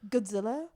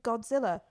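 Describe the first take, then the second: First: The first syllable has the vowel of 'gud'. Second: The first syllable has the vowel of 'god'. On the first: The speaker calls it wrong. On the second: The speaker calls it right.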